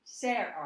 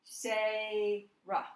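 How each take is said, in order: First: Sarah broken in the wrong place, Sar then ah; wrong split. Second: Sarah broken before the R, Sa then rah, louder; corrected split. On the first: Teacher demonstrating the wrong syllable break in Sarah. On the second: Teacher correcting her syllable break for students. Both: Shown as a demonstration. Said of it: "I should have said, said that wrong".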